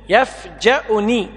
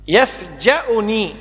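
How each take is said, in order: The two takes are said the same way.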